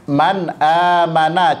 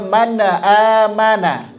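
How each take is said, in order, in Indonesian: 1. Bunyi n berakhir bersih tanpa gema. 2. Bunyi n dipantulkan dengan tambahan vokal. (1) "Kalimat contohnya" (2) "rentan sekali terjadi pantulan, dibaca"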